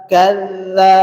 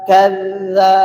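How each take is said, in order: Both takes have the same delivery.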